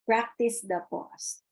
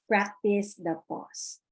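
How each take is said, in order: First: Slow, stress on Practice; slow emphatic phrase. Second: Slow, weight on practice; slow emphatic phrase. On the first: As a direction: repeat it as a firm slogan. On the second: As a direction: lean into practice. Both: Shown as a demonstration.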